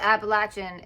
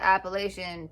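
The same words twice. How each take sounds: First: It is said with a Southern pronunciation. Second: It is said with a non-Southern pronunciation. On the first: The speaker is from the region the stories come from. "I said Appalachian ... because I live in the South" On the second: The speaker would be from outside that region. "instead of Appalachian"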